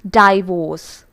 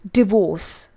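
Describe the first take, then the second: First: It is said with a Malayalam-influenced pronunciation. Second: It is said with the standard English pronunciation. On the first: The speaker calls it wrong. "Most of us pronounce this as divorce. It's not divorce" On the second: The speaker calls it right. "it's divorce"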